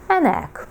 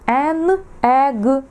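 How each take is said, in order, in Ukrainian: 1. Артикль і іменник вимовляються разом, як одне слово. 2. Артикль і іменник вимовляються як окремі слова.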